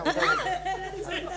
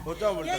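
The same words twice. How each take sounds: First: High, slow, laughing mockery; mocking. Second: Said in the usual way. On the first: Girl mocking mother's praise of her father, drawn out and laughing. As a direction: drag the word out to ridicule it.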